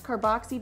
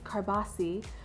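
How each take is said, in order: First: The middle consonant is a 'ks' sound. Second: The middle consonant is a plain 's' sound. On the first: This is how it is said in the US. "we call it with the X carboxy" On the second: This is how it is said in Italy. "the Italian pronunciation is carbassi"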